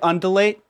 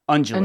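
First: The middle d is a plain d sound. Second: The middle d sounds like a J sound. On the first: The speaker calls it wrong. "Looks like undulate" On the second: The speaker calls it right. "actually pronounced undulate"

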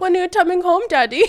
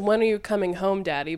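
First: It is said in a put-on British accent. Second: It is said in a plain, non-British accent.

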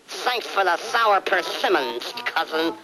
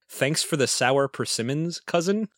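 First: It is said with a Daffy Duck lisp. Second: It is said in a plain normal voice.

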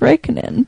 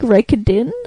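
First: The name is read as spelled, without a D. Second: The name is said with a D-like sound. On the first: This is how the written name looks. "It looks like Raikkonen" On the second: This is how people actually say the name. "it sounds like Raikkonen, almost"

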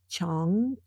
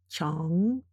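No difference in how they are said.

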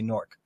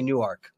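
First: The second-syllable vowel is dropped. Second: The second-syllable vowel is fully pronounced. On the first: This is how locals say it. "we don't pronounce the A. ... We say Newark" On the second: This is how outsiders say it. "We don't say Newark"

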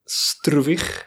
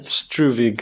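First: The name is said with Afrikaans pronunciation. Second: The name is said with an anglicized pronunciation. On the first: This is how the speaker himself says his name. "That would be the way I pronounce it" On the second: This is a version for English speakers. "I guess, for English-speaking people"

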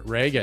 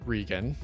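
First: The first syllable does not sound like 'ree'. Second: The first syllable sounds like 'ree'. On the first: The speaker calls it right. "Not Ree, but Reagan" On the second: The speaker calls it wrong. "not Regan"

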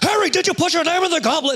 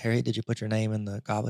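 First: It is said aggressively and urgently. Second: It is said calmly and gently.

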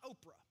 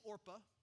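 First: The r sound comes after the p. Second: The r sound comes before the p. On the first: The speaker calls it wrong. "It's not Oprah" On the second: The speaker calls it right. "it is Orpah"

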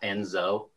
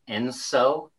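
First: The middle consonant is a z sound. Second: The middle consonant is an s sound. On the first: The speaker calls it wrong. "not Enzo" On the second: The speaker calls it right. "the proper way to pronounce the El Nino La Nina index is Enso"

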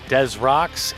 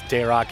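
First: Des is said as in Des Plaines. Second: Des is said as in Des Moines. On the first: "if you want to go Des Plaines" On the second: "if you want to go to Des Moines"

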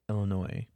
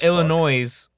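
First: The final s is silent. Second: The final s is pronounced. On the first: The speaker calls it right. "Disregard the IS" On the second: The speaker calls it wrong. "Not Illinois"

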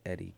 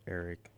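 First: The name is said with Spanish vowels and sounds. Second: The name is said with English vowels and sounds. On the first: The speaker calls it right. "It's Eric" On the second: The speaker calls it wrong. "my name's not pronounced Eric"

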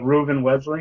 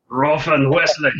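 First: The name is said calmly. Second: The name is said angrily.

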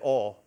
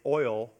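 First: It is said with a Texas pronunciation. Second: It is said with a Colorado pronunciation. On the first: The speaker calls it right. "the right way to say it is oil. That's right, you say it in Texas" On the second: The speaker calls it wrong. "they changed the way I say it"

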